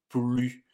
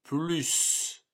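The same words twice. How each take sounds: First: The final S sound is silent. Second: The final S sound is pronounced. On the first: It is part of a negation. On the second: It expresses an addition.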